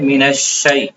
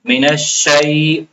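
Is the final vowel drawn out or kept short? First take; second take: short; drawn out. First: The final vowel is kept short. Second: The final vowel is drawn out long. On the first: The speaker calls it right. "क्या पढ़ेंगे?" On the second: The speaker calls it wrong. "बाज़ लोग शै में खींच लेते हैं ... मिनश्शै पढ़ना गलत है"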